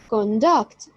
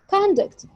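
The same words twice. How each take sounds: First: The stress is on the second syllable. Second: The stress is on the first syllable. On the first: It is used as a verb. "with a stress on the second syllable as in conduct" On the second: It is used as a noun. "with the stress on the first syllable as conduct"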